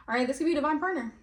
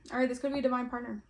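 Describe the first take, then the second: First: Higher, louder and fast, a sudden eager burst; excited. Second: Said in the usual way. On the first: Real, not acted. Reader excitedly announces a divine partner card. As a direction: blurt out the discovery. Repeats card reading with emphasis.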